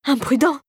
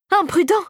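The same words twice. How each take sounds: First: Higher, rising splutter of shock; choking indignation. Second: Much higher, rising squawk of outrage; choked shriek. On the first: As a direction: splutter the word in disbelief. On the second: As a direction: let it burst out almost in a squeak. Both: A narrator's reading. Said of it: "s'étouffa son collègue".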